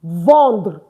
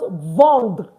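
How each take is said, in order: First: The final 're' sound is dropped. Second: The same.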